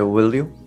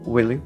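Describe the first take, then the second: First: Both words are said fully and clearly. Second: Both words are said weakly and reduced. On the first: The speaker calls it wrong. "will you ではなくて" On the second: The speaker calls it right. "かなりこう弱く、will you みたいな"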